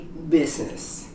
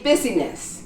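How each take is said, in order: First: The middle vowel is silent, leaving two syllables. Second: The middle vowel is sounded as a syllable. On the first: The speaker calls it right. "You say business" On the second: The speaker calls it wrong. "You don't say busyness"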